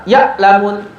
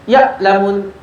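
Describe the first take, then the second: The two takes are said the same way.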